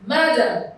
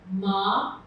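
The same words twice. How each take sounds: First: MADAM as one word, loud MA, weaker falling dam; Madam joined up, punched on the first syllable; stress on first syllable. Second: MA-DAM split into two separate syllables, long pause between; broken into syllables. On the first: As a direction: hit the MA of Madam, let dam drop. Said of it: "part that is loudest is the first". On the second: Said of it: "let's break this word down". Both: Shown as a demonstration.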